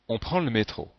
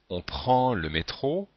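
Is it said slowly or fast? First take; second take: fast; slowly. First: It is said fast and casually, sounds run together. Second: It is said slowly, with every sound.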